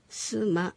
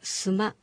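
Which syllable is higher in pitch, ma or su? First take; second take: su; ma. First: The first syllable su is higher in pitch. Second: The second syllable ma is higher in pitch. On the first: The speaker calls it wrong. "スマではなく" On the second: The speaker calls it right. "マの方を高く発音する"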